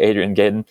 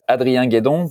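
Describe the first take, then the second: First: The name is said with an American accent. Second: The name is said with a French accent.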